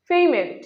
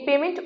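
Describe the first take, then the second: First: পেমেন্ট with a long glide, 'PEI-ment'; corrected pronunciation. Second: পেমেন্ট with a short 'e', 'pe-ment'; common mispronunciation. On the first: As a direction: stretch the first vowel of পেমেন্ট to 'ei'. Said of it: "এর সঠিক উচ্চারণ হচ্ছে". (পেমেন্ট-এর শুদ্ধ উচ্চারণ, 'পেইমেন্ট') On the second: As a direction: say পেমেন্ট without a glide. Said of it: "উচ্চারণটি ভুল". (পেমেন্ট-এর ভুল উচ্চারণ, 'পেমেন্ট') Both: Shown as a demonstration.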